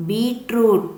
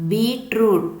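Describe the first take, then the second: No difference in how they are said.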